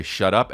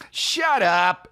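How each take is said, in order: First: Said in the usual way. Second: High, drawn-out theatrical retort; stretched, higher-pitched mock dismissal; hammed-up fifties shut up. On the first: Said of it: "one line where he had to say". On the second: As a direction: imitate an actor overdoing a fifties line. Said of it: "he was doing it like".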